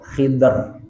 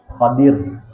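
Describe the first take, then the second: First: First vowel i, no second vowel: Khidr. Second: First vowel a, second vowel i: Khadir. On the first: "kho-nya dibaca kasrah, dotnya sukun" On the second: "kho-nya dibaca fathah, dotnya kasrah"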